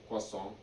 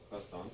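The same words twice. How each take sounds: First: It is said with an exaggerated mock French pronunciation. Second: It is said with a plain American English pronunciation.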